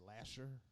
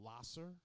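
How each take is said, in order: First: The middle consonant is an 'sh' sound. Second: The middle consonant is an 's' sound. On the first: This is how a lot of people say it. "a lot of people say Lasher" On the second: This is the street's actual name. "this one called Lasser"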